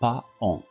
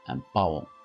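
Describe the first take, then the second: First: The a is sounded, giving two vowels. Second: The a is silent, giving one nasal vowel. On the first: The speaker calls it wrong. "non pas paon" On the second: The speaker calls it right. "Le A ne se prononce pas"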